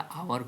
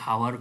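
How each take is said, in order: First: The word starts with a vowel, no h sound. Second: The word starts with an audible h sound. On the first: The speaker calls it right. "सेटा आवर कहे" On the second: The speaker calls it wrong. "हावर कहूने आम"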